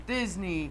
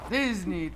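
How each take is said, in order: First: Put-on squeezed-down tiny girl's voice; monstrous little voice. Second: Said in the usual way. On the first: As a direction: shrink into a small lady's voice. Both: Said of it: "I'll speak in a monstrous little voice".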